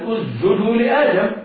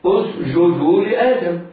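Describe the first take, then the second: First: The s disappears into the j. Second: The j is soft and drawn out. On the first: "فينطقونها جيما اسجدوا لآدم ويخفون السين" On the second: "يبالغون في تعطيش الجيم يعني في رقاوتها وإخفاء شدتها"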